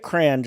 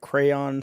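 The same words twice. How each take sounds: First: It is said as one syllable, like cran. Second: It is said as two syllables, cray-on. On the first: "just write C R A N" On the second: "spell it out"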